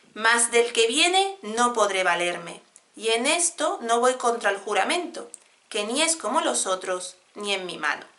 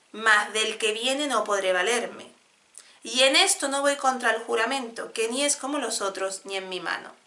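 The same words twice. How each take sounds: The two takes are said the same way.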